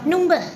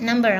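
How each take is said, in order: First: It is said with a British accent. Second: It is said with an American accent. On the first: "Kalau orang British?" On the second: "kalau kita kan soalnya Amerika"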